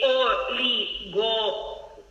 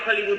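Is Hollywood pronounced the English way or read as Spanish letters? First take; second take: Spanish; English. First: The word is read letter by letter, Spanish-style. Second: The word is said with its English pronunciation. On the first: The reader does not know the word. The speaker calls it wrong. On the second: The reader already knows the word. The speaker calls it right.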